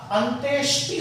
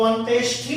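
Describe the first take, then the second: First: अंत्येष्टि with unaspirated ṭ in the last syllable; correct pronunciation. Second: अंत्येष्टि with aspirated ṭh in the last syllable; mispronunciation demo. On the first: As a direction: say अंत्येष्टि with a clean -ṣṭi ending. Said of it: "तो यहाँ पर ट आएगा". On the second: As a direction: say अंत्येष्टि wrongly, ending in a breathy -ṣṭhi. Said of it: "तो अंत्येष्टि नहीं होता". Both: Shown as a demonstration.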